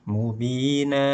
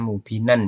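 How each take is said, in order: First: The word ends with a long vowel, no n. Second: The word ends with a short vowel and n. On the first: The reading stops at this word. "dua harokat" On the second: The reading continues without stopping. "Kalau misalkan ini tidak diwakafkan akan terbaca mubinan"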